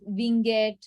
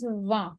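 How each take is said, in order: First: A final T sound is pronounced. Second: The word ends without a T sound. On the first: The speaker calls it wrong. "people pronounce it as Van, Vinget, lot of things" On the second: The speaker calls it right. "But the pronunciation is Vin"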